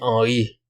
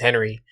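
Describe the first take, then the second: First: The name is said with a non-American pronunciation. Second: The name is said with an American pronunciation. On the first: This is the true form of the name. "but his name's" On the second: This is the version given to other people. "he tells people his name is"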